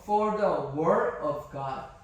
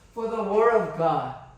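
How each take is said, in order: First: The phrase is read slowly. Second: The phrase is read at normal speed.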